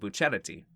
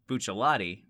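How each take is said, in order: First: The middle consonant is pronounced as an R. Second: The middle consonant is pronounced as an L. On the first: This is the current way the name is said. "now it's" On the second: This is the older way the name was said. "with the L's"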